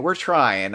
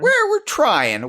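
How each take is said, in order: First: Said in the usual way. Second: High, slow drawn-out whine. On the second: Acted. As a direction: stretch it out with mock effort, much higher. Sighing comment on the timetable.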